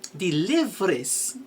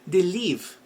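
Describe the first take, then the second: First: The final S sound is pronounced. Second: The final S sound is silent. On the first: The speaker calls it wrong. "no, it's wrong" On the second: The speaker calls it right. "because live is a silent S"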